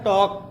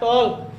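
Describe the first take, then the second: First: The L sound is left out entirely. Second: The L sound is pronounced in the word. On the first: This is how the word is actually read. The speaker calls it right. "लेकिन हम लोग इसको पढ़ते हैं टॉक" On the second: This is how the word is spelled. The speaker calls it wrong. "लिखा है टॉल्क"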